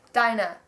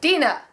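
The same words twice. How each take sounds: First: "Dinah" said DYE-nuh; "Dinah" as DYE-nuh, testing the name; mistaken name pronunciation. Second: "Dina" said DEE-nuh; "Dina" as DEE-nuh, testing the name; correct name pronunciation. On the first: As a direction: say "Dinah" with an eye sound first. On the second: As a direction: say "Dina" with an ee in the first syllable. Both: Shown as a demonstration. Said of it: "I almost said Dinah".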